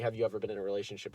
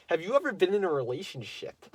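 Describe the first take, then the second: First: Said in the usual way. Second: Put-on girl's question, first version. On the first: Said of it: "let me rephrase that". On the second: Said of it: "It was more like, let me rephrase that".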